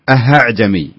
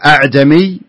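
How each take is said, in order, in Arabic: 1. الهمزة الثانية تتحول إلى صوت الهاء. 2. الهمزة الثانية تُنطق كاملة وبقوة. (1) "ولا يصلح نقول أهعجمي" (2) "ما يصلح نقول أعجمي"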